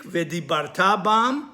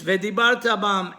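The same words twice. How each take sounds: First: Slow V'dibarta bam, stressed on "ta"; stress on last syllable. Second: V'dibarta bam stressed on "bar"; stress before last syllable. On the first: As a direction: draw out V'dibarta bam, weight on the "ta". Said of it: "you will speak". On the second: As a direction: hit "bar" in V'dibarta and pass lightly over "ta". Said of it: "and you spoke about them". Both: Shown as a demonstration.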